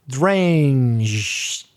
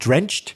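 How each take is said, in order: First: The word is said slowly, at half speed. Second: The word is said at normal speed.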